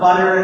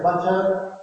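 First: The middle T is a quick tap. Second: The middle T is a clear T.

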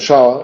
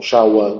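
First: The word is said as one syllable. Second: The word is said as two syllables. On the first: "una sílaba"

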